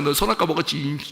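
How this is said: It is said angrily, with a frown.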